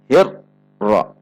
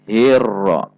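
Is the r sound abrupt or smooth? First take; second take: abrupt; smooth. First: The r is jerked, splitting the word abruptly. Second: The r flows smoothly between abrupt and held. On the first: The speaker calls it wrong. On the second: The speaker calls it right. "di antara terhentak dan tidak tertahan"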